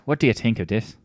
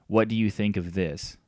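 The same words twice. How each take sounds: First: The word this begins with a d sound. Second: The word this begins with a th sound.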